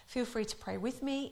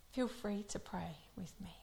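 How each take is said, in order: First: Said in the usual way. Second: Soft unvoiced whisper of feel free to pray with me; hushed prayer invitation. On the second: Real, not acted. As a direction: breathe the invitation.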